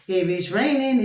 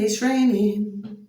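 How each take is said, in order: First: Said in the usual way. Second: It's raining stretched slow, each word drawn out; slow, weary it's raining; slow drawn-out repeat. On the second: Real, not acted. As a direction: drag out it's raining in mock dismay.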